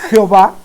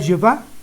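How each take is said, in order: First: The name starts with a J sound. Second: The name starts with a Y sound. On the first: The speaker calls it wrong. "¿Me puede decir por qué le dice Jehová?" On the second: The speaker calls it right. "Sería Jehová"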